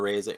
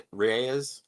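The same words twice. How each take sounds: First: Reyes clipped to "ez", first R and vowel dropped; wrong pronunciation. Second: Reyes said carefully as "ree-AY-ez"; correct pronunciation. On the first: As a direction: Reyes said quickly as "ez". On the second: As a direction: Reyes with a clear R and three syllables. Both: Real, not acted.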